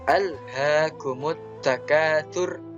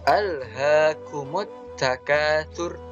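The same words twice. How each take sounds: No difference in how they are said.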